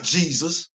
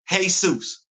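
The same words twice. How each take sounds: First: The name has an English pronunciation. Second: The name has a Spanish pronunciation. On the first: The speaker calls it wrong. "It's not" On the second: The speaker calls it right.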